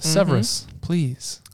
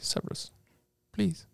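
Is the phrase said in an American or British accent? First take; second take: American; British. First: It is said in a plain American accent. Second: It is said in an attempted British accent.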